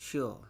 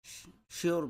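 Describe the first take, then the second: First: শিওর said without the r, British style; British sure. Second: শিওর said with the r sounded, American style; American sure. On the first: Teacher to students, British শিওর with no r. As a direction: drop the r in শিওর. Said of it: "আর যদি আমরা ব্রিটিশে বলি". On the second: Teacher to students, American শিওর with the r. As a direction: say শিওর with a clear r at the end. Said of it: "American প্রনাউন্সিয়েশনে আর এর উচ্চারণ". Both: Shown as a demonstration.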